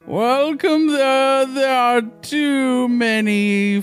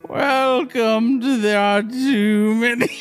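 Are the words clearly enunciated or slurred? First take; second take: slurred; clearly enunciated. First: The words are slurred and sound sleepy. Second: The words are crisply and clearly enunciated. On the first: The speaker calls it wrong. "You're like slurring. Seems like you're kind of falling asleep here" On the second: The speaker calls it right. "That was good"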